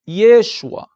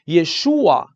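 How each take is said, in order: First: The stress is on the first syllable. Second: The stress is not on the first syllable. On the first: This is the Aramaic form. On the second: This is the Hebrew form.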